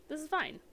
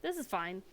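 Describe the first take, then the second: First: Higher, mock-cheerful with a falling end; ironic this is fine. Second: Said in the usual way. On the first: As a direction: fake calm while things go wrong. Second take, meme-like.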